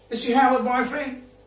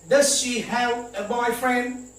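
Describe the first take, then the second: First: It is said very fast, with 'does' reduced. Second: It is said at a normal, careful pace.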